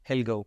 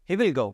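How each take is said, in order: First: He and will merge into one short syllable. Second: He and will are said as separate full words.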